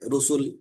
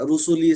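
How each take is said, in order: First: The word ends abruptly on its final consonant. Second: The word ends with a vowel sound. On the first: The reading stops at this word. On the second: The reading continues without stopping.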